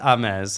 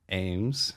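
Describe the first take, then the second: First: The name has a fancy, foreign-sounding pronunciation. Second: The name has its plain, ordinary pronunciation. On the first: The speaker calls it wrong. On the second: The speaker calls it right.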